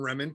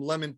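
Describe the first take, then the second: First: The word begins with an R sound instead. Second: The word begins with a clear L sound. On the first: "his brain reversed those letters" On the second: "people were getting"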